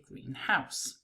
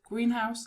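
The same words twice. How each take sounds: First: The stress falls on the word house. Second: The stress falls on the word green. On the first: "allows us to differentiate it from" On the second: "the stress on English compounds falls on the first word"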